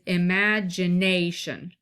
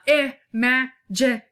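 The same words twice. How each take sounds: First: Stress falls on the second and fourth syllables. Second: Every syllable gets equal weight, counted out. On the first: The speaker calls it right. "can you hear that stress on ma and nay" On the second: The speaker calls it wrong. "which is what me just counting out the syllables"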